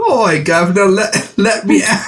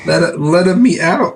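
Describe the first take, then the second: First: High, hammed-up fake Australian; badly faked Australian accent. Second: High, slow cartoon Italian; hammed-up Italian accent; mock Italian accent. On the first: Co-host playing the doll as Australian, badly faked Australian accent. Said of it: "she's Australian". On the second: Co-host mimicking the doll as an Italian, hammed-up Italian accent. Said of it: "It's like an Italian person".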